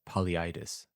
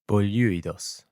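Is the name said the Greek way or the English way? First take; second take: English; Greek. First: The name is said with English-style sounds. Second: The name is said with Greek-style sounds. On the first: "I would render that into English as" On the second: "the Greek would be"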